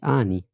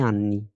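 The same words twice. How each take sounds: First: "آني" with a long A and short N; wrong, single N. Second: "أني" as "an-ni", leaning on the long N; Italian "أني" with both Ns sounded; double N held. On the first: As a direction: mispronounce "آني" as "aa-ni". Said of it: "مش آني". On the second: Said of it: "هي دوبيا إن". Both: Shown as a demonstration.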